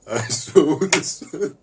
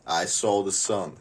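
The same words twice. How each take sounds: First: High, loud, slow awed exclamation; stunned wonder, slow and loud. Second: Said in the usual way. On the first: Acted. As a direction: marvel at the sun, drawn out and high. Repeats line with big delivery.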